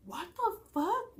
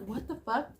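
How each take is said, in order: First: Stunned disbelief. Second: Said in the usual way. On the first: Retold or imitated. Hearing his name from mom.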